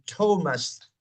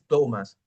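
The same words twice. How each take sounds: First: The T is explosive, with a strong puff of air. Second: The T is soft, with no puff of air. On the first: The speaker calls it right. "Es explosivo" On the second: The speaker calls it wrong. "no es Thomas"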